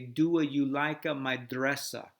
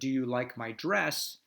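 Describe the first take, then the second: First: It is said in an Italian accent. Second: It is said in a plain accent.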